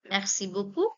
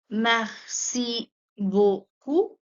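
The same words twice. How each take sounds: First: It is said at a faster pace. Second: It is said at a slower pace.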